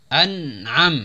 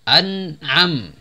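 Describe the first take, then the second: The two takes are said the same way.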